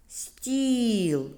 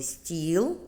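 First: "стіл" with a long і, high then falling; slow sounding-out of "стіл", vowel sustained; drawn-out vowel. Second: Said in the usual way. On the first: Shown as a demonstration. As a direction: stretch the і in "стіл". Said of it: "Шукаємо звук". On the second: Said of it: "А який звук заховався в слові".

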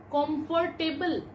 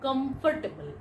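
First: Comfortable. said as kom-for-TAY-bul; Comfortable. said wrongly, as kom-for-TAY-bul; common mispronunciation. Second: Comfortable. said as KUM-fuh-tuh-bul; Comfortable. said rightly, as KUM-fuh-tuh-bul; correct pronunciation. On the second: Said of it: "Not comfortable". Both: Shown as a demonstration.

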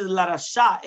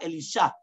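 First: "Larasha" said slowly with a clear "ra"; slow, deliberate "Larasha"; intended word. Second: "Elisha" with "li" where "ra" should be; "Elisha", quicker, with a "li" in the middle; misheard word. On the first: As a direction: stretch out "Larasha" to show the real word. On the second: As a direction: offer "Elisha" as the sound-alike mishearing. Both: Shown as a demonstration. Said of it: "because he mumbled".

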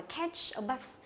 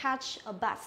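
First: "catch a bus" with catch as "ketch"; common wrong catch. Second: "Catch a bus" with a wide, open æ in Catch; correct catch. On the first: Teacher shows students their mistake, "ketch a bus". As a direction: narrow the vowel of "catch" to e in "catch a bus". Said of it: "Nó phải đọc thế là sai". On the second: Teacher models the phrase for students, open "Catch". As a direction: say "Catch a bus" with the mouth spread on the first vowel. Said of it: "thì chúng ta hay đọc là". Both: Shown as a demonstration.

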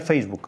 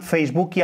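First: Said in the usual way. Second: "Facebooki" with an added i after the k; Brazilian final i. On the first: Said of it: "no las cierran en la K". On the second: Shown as a demonstration. Guest giving an example, "Facebooki" with Brazilian final i. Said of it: "al final como una I".

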